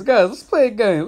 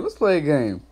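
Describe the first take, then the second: First: Higher, louder, hyped announcement; rally the chat for a game; excited call. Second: Said in the usual way. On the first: Real, not acted. Calling the stream chat into a game, hyped.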